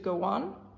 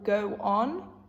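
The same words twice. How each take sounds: First: The two words are linked into one chunk. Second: The two words are said separately.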